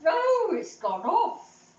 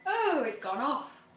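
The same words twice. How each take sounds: First: High loud "Oh" then slow; hammed-up dismay, drawn out; mock dramatic "Oh, it's gone off"; exaggerated repeat. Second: Said in the usual way.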